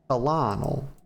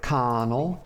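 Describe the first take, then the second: First: It is said in three syllables, co-lo-nel. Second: It is said like kernel, with an R sound. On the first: The speaker calls it right. "the first syllable is co, and then it's lon, L" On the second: The speaker calls it wrong. "that's not even how to pronounce that"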